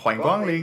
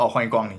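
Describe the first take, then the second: First: It is said in an exaggerated, staged shop-greeting way. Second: It is said casually, without much effort.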